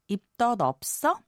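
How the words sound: The voice rises at the end.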